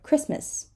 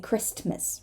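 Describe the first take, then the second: First: The T sound is left out. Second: The T sound is pronounced clearly. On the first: The speaker calls it right. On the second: The speaker calls it wrong.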